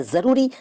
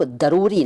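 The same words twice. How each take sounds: First: Said in the usual way. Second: दरूरी with d replacing z. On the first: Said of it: "दरूरी नहीं कहते". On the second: Shown as a demonstration. Teacher showing the rejected form, दरूरी with d for z. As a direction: open दरूरी on a d. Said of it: "नहीं कहते".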